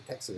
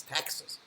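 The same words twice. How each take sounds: First: Said in the usual way. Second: "Texas" with a punched, broad "a" as in "tax"; imitated Texan pronunciation. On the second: Shop woman insisting on local Texas, punched Texan vowel in "Texas". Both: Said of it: "the woman in the shop corrected".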